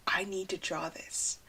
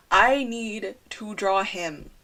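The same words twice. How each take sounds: First: Breathy whispered urge, barely voiced. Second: Said in the usual way. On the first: Real, not acted. Alone in her car, seeing a selfie: whispered. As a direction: whisper it to yourself, struck by a selfie.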